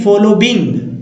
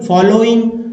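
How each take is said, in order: First: A 'b' sound is inserted before the '-ing' ending. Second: The ending is said as plain 'oing', no b. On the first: The speaker calls it wrong. "फॉलोबिंग नहीं पढ़ना है" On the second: The speaker calls it right. "फॉलोइंग ना कि फॉलोबिंग"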